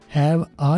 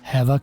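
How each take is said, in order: First: The two words are said separately. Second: The two words are run together as one. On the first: The speaker calls it wrong. "हैव आ नहीं किया" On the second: The speaker calls it right. "हैव और आ को मैंने मिला दिया"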